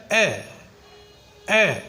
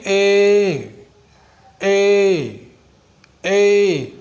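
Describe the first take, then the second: First: ए clipped short and quick; teacher models the short English ए; short a sound. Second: ए stretched out long and slow; teacher contrasts short with long, slowly drawn ए; long a sound. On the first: ए kept brief and crisp. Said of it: "जब इसकी short sound निकाल रहे हैं तो ये है". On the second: ए held slow and drawn out. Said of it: "long इसकी sound होगी". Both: Shown as a demonstration.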